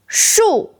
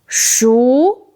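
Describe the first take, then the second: First: The syllable is said with a falling tone. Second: The syllable is said with a rising tone. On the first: It means tree. "Fourth tone, 树 means tree" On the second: It means cooked. "Second tone, 熟 means cooked"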